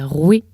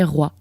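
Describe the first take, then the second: First: The word ends in an 'eh'-like vowel. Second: The word ends in an 'ah'-like vowel. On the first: The refined, elegant pronunciation of earlier times. "la prononciation esthétique du mot roi, c'était roué" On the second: The common people's pronunciation, used today. "C'était la populace qui disait roi, comme on le fait"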